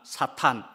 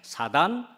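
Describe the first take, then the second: First: The middle consonant is a breathy aspirated t. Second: The middle consonant is a soft plain d. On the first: "사탄이라고 되어 있는 것입니다" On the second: "발음으로는 사단이라고도 이야기하고"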